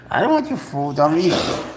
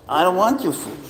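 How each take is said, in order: First: Mock pleading. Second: Higher, pleading singsong to the cat; mock pleading. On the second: Owner coaxing his cat to eat, high pleading tone. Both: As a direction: coax the cat with a raised pleading voice.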